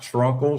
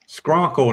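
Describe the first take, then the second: First: The word begins with an 'shr' sound. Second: The word begins with an 'sk' sound. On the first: The speaker calls it wrong. "not Schrunkle" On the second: The speaker calls it right. "It's Skrunkle"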